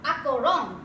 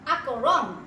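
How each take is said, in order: No difference in how they are said.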